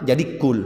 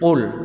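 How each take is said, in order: First: It begins with a plain front k sound. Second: It begins with a deep throat q sound. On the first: The speaker calls it wrong. "Tak boleh baca kul kaf" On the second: The speaker calls it right. "Kan qalqalah. Qul, kau tuh kelet"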